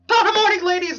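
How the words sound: It is said in a very high pitch.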